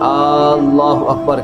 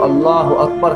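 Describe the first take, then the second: First: The opening vowel of Allah is drawn out. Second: No vowel is drawn out. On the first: The speaker calls it wrong. "यानी अलिफ को खींच देते हैं" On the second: The speaker calls it right. "अल्लाह अकबर कहने की बजाय"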